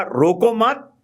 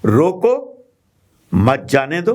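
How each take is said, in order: First: "रोको मत" joined, higher and rising, then a break; pause after मत. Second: Loud rising रोको, pause, then "मत जाने दो" together; pause after रोको. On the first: Teacher showing the comma's second meaning, pause after मत. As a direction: run रोको into मत, then stop. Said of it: "सिर्फ कौमे को आपने आगे सरकाया". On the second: Teacher showing the comma's first meaning, pause after रोको. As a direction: break straight after रोको, joining मत to जाने दो. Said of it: "अब इसके दो, अ, अर्थ हैं". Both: Shown as a demonstration.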